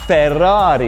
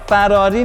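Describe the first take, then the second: First: The word is said with an Italian accent. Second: The word is said with a plain Persian accent. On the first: The speaker calls it right. "باید با یه لهجه ایتالیایی بگی" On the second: The speaker calls it wrong. "فراری نه"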